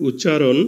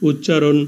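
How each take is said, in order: Both takes have the same delivery.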